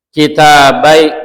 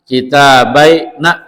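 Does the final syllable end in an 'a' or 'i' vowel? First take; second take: i; a. First: The final nun carries an i vowel. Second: The final nun carries an a vowel. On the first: This is the form most Arabs use. "ni, ni kasroh" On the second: This is a rare form found mostly in poetry. "fathah gitu ya"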